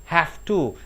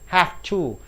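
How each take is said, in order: First: The word have ends with an F sound. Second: The word have ends with an F sound.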